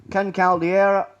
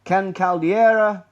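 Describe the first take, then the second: First: Said in the usual way. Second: Caldeira drawn out slowly, falling; slow stressed name. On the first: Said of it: "name repeated". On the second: Real, not acted. Presenter spelling out a key name, Caldeira stressed slowly. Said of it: "name said slowly, stressed".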